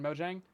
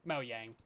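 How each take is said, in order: First: The j sounds like the j in jam. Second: The j sounds like the y in yang. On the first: This is the common pronunciation made official. "everyone is saying it wrong, so we're just gonna make the official pronunciation Mojang" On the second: This is the original Swedish pronunciation. "It is technically Mojang because they be Swedish"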